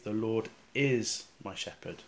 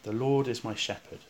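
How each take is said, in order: First: The stress is on the word is. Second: The stress is on the word shepherd. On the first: The Lord truly is the shepherd now. "try emphasising the word is" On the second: The Lord is a shepherd rather than something else. "with the emphasis on the word shepherd"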